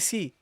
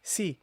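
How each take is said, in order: First: The consonant is said thin and light. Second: The consonant is said thin and light.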